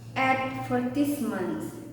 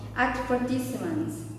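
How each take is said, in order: First: The stress is on the first syllable. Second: The same.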